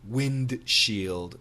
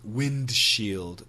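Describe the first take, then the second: First: The D sound is clearly pronounced. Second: The D sound is clearly pronounced.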